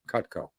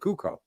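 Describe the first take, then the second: First: The t sound in the middle is pronounced. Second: The t sound in the middle is dropped. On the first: "You didn't say Cutco" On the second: "you didn't say the word cut"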